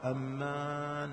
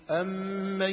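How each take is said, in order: First: The vowel after the m is drawn out long. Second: The vowel after the m is kept short. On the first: The speaker calls it wrong. "لا كما هو متعارف أمان، هذا مو صحيح" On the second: The speaker calls it right. "نقرأ الآية الشريفة بصيغتها الصحيحة"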